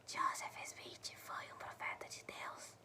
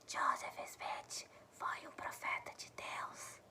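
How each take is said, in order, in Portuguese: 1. A frase é sussurrada. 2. A frase é sussurrada.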